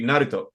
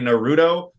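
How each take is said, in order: First: The u sound is subtle and barely pronounced. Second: The u sound is fully and clearly pronounced. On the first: The speaker calls it right. "they have subtle U sounds. So that it should be Naruto" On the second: The speaker calls it wrong. "people who say Naruto, wrong"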